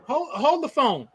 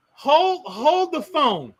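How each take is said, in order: First: Said in the usual way. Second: Slow, drawn-out "hold the phone"; dramatic slow repeat. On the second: Shown as a demonstration. Spotting the cage in the host's house, slow mock disbelief. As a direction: stretch each word out in disbelief.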